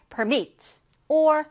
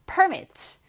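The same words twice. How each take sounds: First: PER-mit with the weight up front; stress on the first syllable. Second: Per-MIT with the weight at the end, falling; stress on the second syllable. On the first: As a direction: lean on the start of permit. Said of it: "명사일 때는 앞에 강세가 와요". (앞 음절에 강세를 둔 permit) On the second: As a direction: push the stress back in permit. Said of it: "뒤에서 강세가 올 때는 동사". (뒤 음절에 강세를 둔 permit) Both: Shown as a demonstration.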